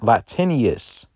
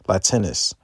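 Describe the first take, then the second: First: The name ends with an extra 'ee-us' sound. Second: The name ends with a plain 'us' sound. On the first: The speaker calls it wrong. "I said it wrong" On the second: The speaker calls it right.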